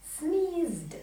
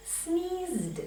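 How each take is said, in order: Both takes have the same delivery.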